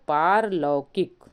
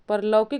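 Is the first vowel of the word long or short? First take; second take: long; short. First: The first vowel is long. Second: The first vowel is short. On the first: The speaker calls it right. "बल्कि क्या होता है, पारलौकिक" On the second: The speaker calls it wrong. "परलौकिक नहीं होता है"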